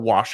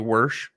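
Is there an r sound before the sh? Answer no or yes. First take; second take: no; yes. First: The vowel is followed directly by sh. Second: An r sound comes before the sh. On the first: "instead of wash your clothes" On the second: "they say worsh"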